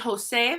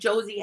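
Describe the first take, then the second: First: The word begins with a breathy h sound. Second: The word begins with an English j sound. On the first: The speaker calls it right. "it sounds like an English H" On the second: The speaker calls it wrong. "we don't say"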